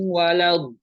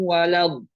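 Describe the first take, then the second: Both takes have the same delivery.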